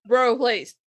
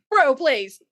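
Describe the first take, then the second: First: Said in the usual way. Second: Scoffing bro. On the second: Pretend. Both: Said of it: "Like, fuck off".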